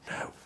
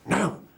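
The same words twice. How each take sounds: First: It is said quietly, in a soft whisper. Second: It is said loudly, only partly whispered.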